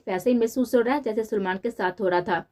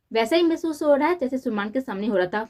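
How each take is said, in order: First: Said in the usual way. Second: Words bitten off one by one, a little higher, with cold anger; a reread line, now angrily chewing every word. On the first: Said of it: "लफ्ज़ चबा चबा कर". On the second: A narrator's reading. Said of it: "लफ्ज़ चबा चबा कर ... गुस्से से बोलती".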